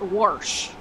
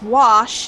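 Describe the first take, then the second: First: The word is said in the regional way. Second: The word is said in the standard way. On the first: The speaker calls it wrong. "not wash" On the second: The speaker calls it right. "they beat the word it's wash"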